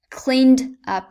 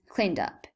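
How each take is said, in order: First: The words are said separately and carefully. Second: The words are run together into one unit.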